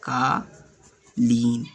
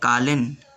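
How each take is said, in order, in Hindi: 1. दूसरा स्वर लंबा है। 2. दूसरा स्वर छोटा है। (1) "यानी इसमें दीर्घ ई आया है" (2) "ये उच्चारण मैं गलत कर रहा हूँ ... मैंने छोटी ई लगा दिया"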